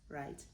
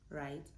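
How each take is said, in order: Both takes have the same delivery.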